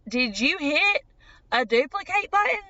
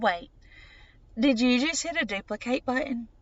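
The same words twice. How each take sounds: First: Higher, incredulous retold question; wide-eyed disbelief. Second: Mildly taken aback, checking what was seen; puzzled question. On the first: Patient asks doctor about the ultrasound image, wide-eyed disbelief. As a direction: climb in pitch as disbelief sets in. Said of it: "and then they grew wide". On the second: Retold or imitated. Patient questions doctor during the ultrasound, mildly puzzled. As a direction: pause after the first word, then a puzzled query. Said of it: "My eyes strained".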